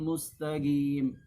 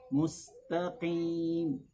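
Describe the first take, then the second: First: The q sound is replaced by a g. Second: The q sound is deep, with spread, unrounded lips. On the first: "ditukar dengan huruf gim, gi" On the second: "yang benar ... dikurangi tebalnya tapi tidak berpindah makhrajnya"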